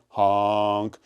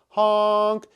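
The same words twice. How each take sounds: First: The word is said at a low pitch. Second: The word is said at a high pitch. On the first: The car has passed. "and then down" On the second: The car is coming closer. "how the pitch went up"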